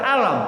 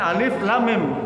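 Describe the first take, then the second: First: It is read as one short word. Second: Each letter name is said separately. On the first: The speaker calls it wrong. "Bapak kan baca alam" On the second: The speaker calls it right. "Kan justru alif lam mim"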